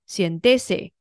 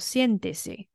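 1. 重音在第二个音节。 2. 重音在第一个音节。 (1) "如果我不标重音符号，在A 上面就会变成呃siéntese，那就不对" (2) "人家念作siéntese"

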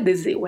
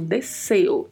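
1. A consoante do meio é um z sonoro, com vibração. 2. A consoante do meio é um s sibilante, sem vibração. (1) "acabam escorregando aí na pronúncia e fala deseo. E não é deseo" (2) "o S entre duas vogais no espanhol não tem som de Z"

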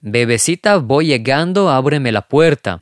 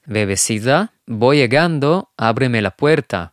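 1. הביטוי נאמר בקצב רגיל, מהיר יותר. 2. הביטוי נאמר לאט ובכוונה.

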